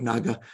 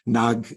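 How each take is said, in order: First: The word ends with a final vowel sound. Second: The word ends on a consonant, no vowel. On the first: "instead of naga" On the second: "the final A is often dropped off of words"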